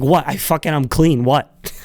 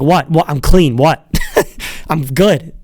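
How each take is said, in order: First: Dismissive protest. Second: Indignant protest. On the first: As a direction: brush off the check with a shrug. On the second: Pitcher protests to the umpire checking him, mock indignant. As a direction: protest innocence with a shrug. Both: Retold or imitated. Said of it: "He's like".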